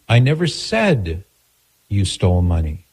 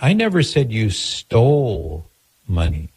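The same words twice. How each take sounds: First: The stress is on the word said. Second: The stress is on the word stole.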